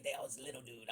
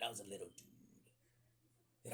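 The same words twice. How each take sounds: First: Said in the usual way. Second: Slow breathy whisper, softer. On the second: Shown as a demonstration. Telling the audience he was small, in a slow whisper. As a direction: let it fall to a hushed whisper. Repeated line, whispered take.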